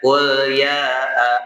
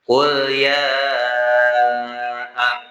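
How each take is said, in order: First: The vowel after ya is kept short. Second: The vowel after ya is held long. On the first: The speaker calls it wrong. "Jadi bukan qul ya a. Salah" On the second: The speaker calls it right. "Panjangnya lebih dari dua harokat"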